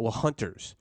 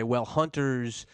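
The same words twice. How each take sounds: First: Said in the usual way. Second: Slow, drawn-out mock excuse; mock NRA spokesman. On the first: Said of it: "that's always the argument". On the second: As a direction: stretch out "Well, hunters" mockingly. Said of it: "the N R A can't come in here and say".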